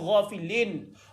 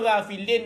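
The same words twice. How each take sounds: First: The first vowel sounds like a heavy 'o'. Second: The first vowel sounds like a thin 'a'. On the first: The speaker calls it right. "ada ghafilin ... dia vowel O" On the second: The speaker calls it wrong. "dia tak ada ghafilin"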